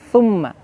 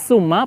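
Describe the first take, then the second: First: The word begins with a soft th sound. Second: The word begins with a plain s sound. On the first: The speaker calls it right. "tapi fa" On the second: The speaker calls it wrong. "Bukan summa pakai s"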